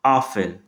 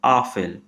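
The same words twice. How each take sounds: First: आफेल said lower, stress on the आ vowel; slow teaching model of आफेल; German word Apfel. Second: आफेल again, stress on the आ vowel; German word Apfel repeated. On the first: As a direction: repeat आफेल for the class. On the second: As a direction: clear teaching repeat of आफेल. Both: Shown as a demonstration. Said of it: "दोबारा बोल देता हूँ".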